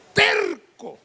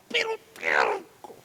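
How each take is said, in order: First: Said in the usual way. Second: Hushed whisper on "pero terco". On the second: Shown as a demonstration. Preacher stresses Jonah's stubbornness to the congregation in a whisper. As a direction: breathe "pero terco" as a secret.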